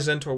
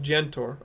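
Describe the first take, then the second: First: The name begins with a plain z sound. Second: The name begins with a zh sound. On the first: The speaker calls it wrong. "I've been saying it wrong this whole time" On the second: The speaker calls it right. "it's pronounced like a G in beige"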